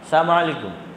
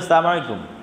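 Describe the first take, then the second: First: It is said quickly, with sounds slurred together. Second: It is said quickly, with sounds slurred together.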